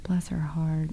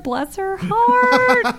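First: It is said in a sincere, sympathetic tone. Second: It is said in a mocking, judgmental tone. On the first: The speaker genuinely feels sorry for her. "oh, her father died" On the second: The speaker is quietly criticizing her. "she should not be wearing that skirt. It's a little too short"

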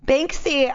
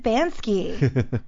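First: The k sound comes before the s. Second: The k sound comes after the s. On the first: The speaker calls it right. "Banksy then?" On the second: The speaker calls it wrong. "I've always said Bansky"

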